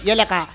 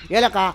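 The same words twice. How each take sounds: The two takes are said the same way.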